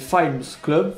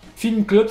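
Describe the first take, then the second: First: The first word sounds like 'fight'. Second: The first word sounds like plain 'film'. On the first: "on va prononcer Fimes Club, et comme ça, ça fait genre Fight Club" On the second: "ça se prononçait pas pareil"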